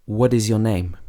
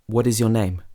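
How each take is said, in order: Both takes have the same delivery.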